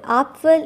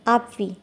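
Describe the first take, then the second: First: It is said with a standard German pronunciation. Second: It is said with a Bavarian dialect pronunciation. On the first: "in standard Germans"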